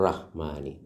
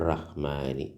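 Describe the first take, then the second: The two takes are said the same way.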